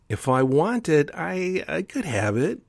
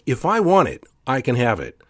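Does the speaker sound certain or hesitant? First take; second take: hesitant; certain. First: It is said with doubtful hesitation. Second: It is said with firm certainty.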